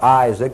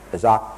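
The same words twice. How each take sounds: First: The first vowel is clearly pronounced. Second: The first vowel is nearly dropped. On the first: The speaker calls it wrong. "it's not Isaac" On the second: The speaker calls it right. "You can hardly hear the I"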